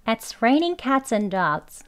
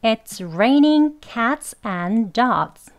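First: "cats and" joined smoothly, brief stop before "dogs"; weak linked AND. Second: "and" said in full as a separate "an", every word slow; slow strong form. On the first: Teacher doing the whole sentence, weak linked "and". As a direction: reduce "and" onto "cats", pause slightly, then "dogs". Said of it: "부드럽게 약하게 이어서 발음을". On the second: Teacher showing slow speech, strong unlinked "and". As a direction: space out the words and give "and" full weight. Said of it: "천천히 발음하는 경우 강형으로". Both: Shown as a demonstration.

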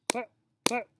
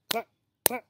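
No difference in how they are said.

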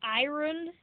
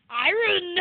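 First: Said in the usual way. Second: Loud, high imitating New Zealand accent; mock a New Zealand accent on iron. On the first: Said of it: "You say iron". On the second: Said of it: "Your New Zealand accent makes you go".

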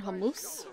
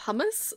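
First: Hummus said the Lebanese family way; Lebanese family pronunciation. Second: Said in the usual way. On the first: Shown as a demonstration. Gamer explains her family's word to viewers, Lebanese pronunciation. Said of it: "we've always said hummus instead of". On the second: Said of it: "instead of hummus".

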